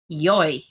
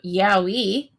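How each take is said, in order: First: It is said as one syllable, like 'yoy'. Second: It is said as two syllables, like 'yowie'. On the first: "I always pronounced it yoy" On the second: "when people were talking about yowie around me"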